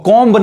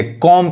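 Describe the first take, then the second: First: कॉम्ब with an audible B at the end; B pronounced. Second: कॉम ending on M, no B; silent B. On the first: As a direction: sound out the final B in कॉम्ब. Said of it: "कॉम्ब नहीं कहेंगे". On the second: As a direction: close कॉम on the M sound. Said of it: "यानी बी नहीं पढ़ाएगा". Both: Shown as a demonstration.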